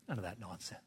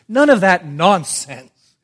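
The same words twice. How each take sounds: First: Very soft, low aside; quiet dismissal. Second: Loud, high, slow rebuke; emphatic dismissal. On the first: Dismisses the imagined bargaining. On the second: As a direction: thunder it from the pulpit. Same dismissal, now emphatic. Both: Real, not acted.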